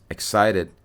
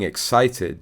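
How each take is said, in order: First: "excited" with the T softened to a D. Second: Said in the usual way. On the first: Shown as a demonstration. Expert notes the prince's changed speech, "excited" with D for T. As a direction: say "excited" American-style, like "excided". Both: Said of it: "changing the pronunciation of T to D".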